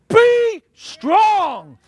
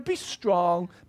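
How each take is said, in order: First: It is said in a firm, commanding tone. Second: It is said in a soft, coddling tone.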